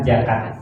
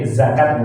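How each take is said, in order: First: The word begins with a j sound. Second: The word begins with a z sound. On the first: The speaker calls it wrong. "bukan jakat" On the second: The speaker calls it right. "Jadi zakat bukan jakat"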